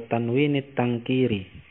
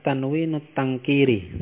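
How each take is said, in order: First: "tanwinit tangkiri" with an i linking the words. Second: "tanwinut tangkiri" with a u linking the words. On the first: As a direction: say "tanwinit", short i before the final t. (baca "tanwinit" dengan bunyi i) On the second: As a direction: say "tanwinut", short u before the final t. (baca "tanwinut" dengan bunyi u) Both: Shown as a demonstration. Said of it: "atau tanwinit tangkiri".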